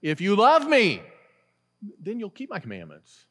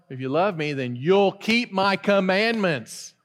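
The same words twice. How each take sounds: First: All the weight on "love"; stress on love. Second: "keep" gets the weight, not "love"; stress on keep. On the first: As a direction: hit "love" and let "then you'll keep my commandments" drop. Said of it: "the emphasis is on". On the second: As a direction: hit "keep" hard and draw the line out. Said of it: "some people would read that and say". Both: Shown as a demonstration.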